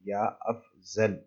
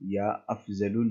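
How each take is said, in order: First: The last word ends without a final vowel. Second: The last word ends with a final 'oo' vowel. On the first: The speaker calls it right. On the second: The speaker calls it wrong.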